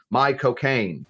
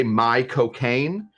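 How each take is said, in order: First: "My cocaine." said at ordinary speed like the name Michael Caine; tossed-off "My cocaine." with stress on my; my cocaine quickly. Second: "my cocaine" said slowly like the name Michael Caine. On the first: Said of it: "like Michael Caine pronounces it". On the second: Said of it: "pronouncing Michael Caine's name like Michael Caine pronounces it". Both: Shown as a demonstration.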